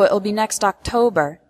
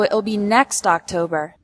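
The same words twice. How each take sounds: First: The word "October" carries the stress. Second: The word "next" carries the stress. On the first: It is in October, not November. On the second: It is next year's October, not this one.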